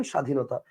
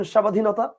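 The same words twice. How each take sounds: First: স্বাধীনতা as sha-dhinota, no b; lower, matter-of-fact "shadhinota" for স্বাধীনতা; silent b. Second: স্বাধীনতা as sha-ba-dhinota, questioning; wrongly sounded b. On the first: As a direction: drop the ব in স্বাধীনতা. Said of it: "আপনি বলেন". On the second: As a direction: put a full b into স্বাধীনতা. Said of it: "বলেন না, আপনি বলেন". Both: Shown as a demonstration.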